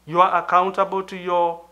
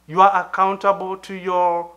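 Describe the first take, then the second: No difference in how they are said.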